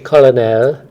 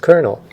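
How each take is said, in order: First: It is said with three syllables, like col-o-nel. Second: It is said with two syllables, like kernel. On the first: This is how the spelling would suggest saying it. The speaker calls it wrong. "we don't say colonel" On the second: This is how the word is actually said. The speaker calls it right. "it's colonel"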